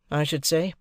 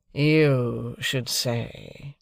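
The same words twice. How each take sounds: First: Said in the usual way. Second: Very slow, drawn sneer with YOU stressed; mocking echo. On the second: Drummle repeating Pip's words, slow sneer. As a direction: drawl the echo back mockingly. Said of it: "repeated Drummle".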